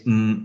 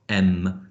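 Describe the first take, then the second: First: The m is short and clipped, with no vowel. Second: The m is followed by an added vowel sound. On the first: The speaker calls it right. "pure sounds" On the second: The speaker calls it wrong. "not m"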